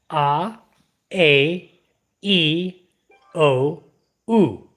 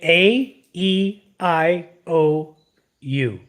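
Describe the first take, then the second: First: The vowels are said with Tagalog vowel sounds. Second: The vowels are said with English letter names. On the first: This is how Filipinos say the vowels. "We say" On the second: This is how English speakers say the vowels. "You say"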